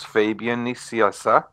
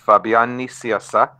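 First: The name is said with English pronunciation. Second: The name is said with Spanish pronunciation. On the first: "In English" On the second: "In Spanish"

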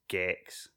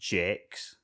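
First: The word starts with a hard G sound. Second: The word starts with a soft J sound. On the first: The speaker calls it right. "It's Gex" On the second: The speaker calls it wrong. "It's not Jex"

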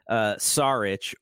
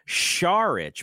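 First: The name begins with a plain S sound. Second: The name begins with an SH sound. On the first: "I think we watched Saric" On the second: "as Ian Eagle called him"

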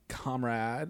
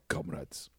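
First: It is said in a soft, effeminate voice. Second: It is said in a Russian accent. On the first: The speaker sounds like a democratic socialist. "if you say it with like a kind of a effeminate" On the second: The speaker sounds like a scary communist. "or say it with a Russian accent, it's scary"

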